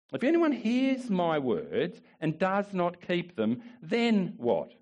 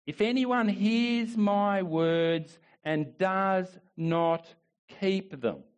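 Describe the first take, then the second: First: Said in the usual way. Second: "If anyone hears my words" read very slowly, word by word; slow, weighty reading. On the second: Shown as a demonstration. Pastor reading Jesus' words to the church, very slow. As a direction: let each word of the verse land slowly.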